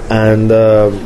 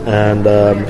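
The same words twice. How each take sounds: The two takes are said the same way.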